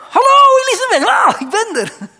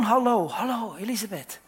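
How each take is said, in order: First: Excited greeting. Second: Said in the usual way. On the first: Acted. Mary greets her cousin Elisabeth at the door, loud high excited call. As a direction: call the greeting across the room, high and bright with joy. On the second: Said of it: "Ze zei gewoon".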